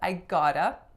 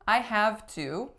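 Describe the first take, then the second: First: The phrase is said in its reduced form. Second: The phrase is said in its full form.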